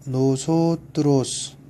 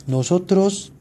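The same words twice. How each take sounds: First: 노소트로스 drawn out slowly, syllable by syllable; teacher modelling 노소트로스 slowly; slow clear model reading. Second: 노소트로스 read at normal pace in one go; 노소트로스 at natural speed; brisk read-through. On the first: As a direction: spell out 노소트로스 slowly for learners. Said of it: "한번 읽어볼까요". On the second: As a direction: read 노소트로스 smoothly in the list. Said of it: "우선 한번 읽어볼까요". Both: Shown as a demonstration.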